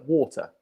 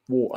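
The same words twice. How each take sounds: First: The T is pronounced as a clear T. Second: The T is replaced by a glottal stop. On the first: "meglio usare quello con la T" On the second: "E questo glottal T"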